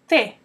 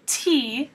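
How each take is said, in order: First: The T is soft, tongue between teeth. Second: The T is a hard, English-like sound. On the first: The speaker calls it right. "try T" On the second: The speaker calls it wrong. "Instead of saying T"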